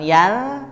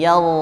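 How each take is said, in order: First: The vowel is plain and thin. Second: The vowel is heavy and rounded toward o. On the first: The speaker calls it wrong. "bukan yal" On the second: The speaker calls it right. "tapi yal, ada oo-nya"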